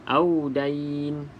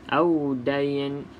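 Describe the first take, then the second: The two takes are said the same way.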